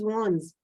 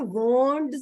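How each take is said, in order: First: No d sound is heard before the s. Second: A d sound is heard before the s. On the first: The speaker calls it right. "आप डी नहीं बोलते, it's is वॉन्ड्स" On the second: The speaker calls it wrong. "ये वॉन्ड्स नहीं होता, इसमें डी की sound नहीं आएगी"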